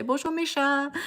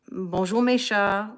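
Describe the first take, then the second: First: High-pitched French pet greeting; greeting the cats. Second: Said in the usual way. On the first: Shown as a demonstration. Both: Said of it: "I say".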